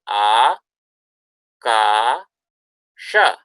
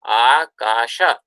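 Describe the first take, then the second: First: It is said slowly, with syllables separated. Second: It is said quickly as one joined word. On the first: "how would you pronounce the individual syllables here?" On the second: "if you just say it a little faster"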